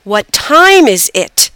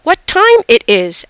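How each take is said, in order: First: "What time is it" very slow, leaning on "time"; correcting model. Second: "What time it is" slow and higher, careful; learner's mistaken question. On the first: Girl corrects her mother, "What time is it" slow and deliberate. Daughter corrects the word order. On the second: Mother practices English, "What time it is" slow and unsure. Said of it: "practice English with her mom". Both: A narrator's reading.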